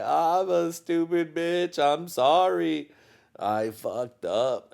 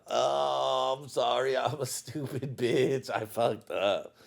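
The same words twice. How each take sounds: First: High, slow whiny apology; mock apology. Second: Slow, slightly higher sheepish sorry with a laugh; half laugh the apology away; mock apology. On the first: Apologizing to his wife for the tantrum, slow whiny grovel. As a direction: grovel like a scolded kid. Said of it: "I was like". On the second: Retelling his apology to his wife, sheepish and laughing. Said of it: "you know".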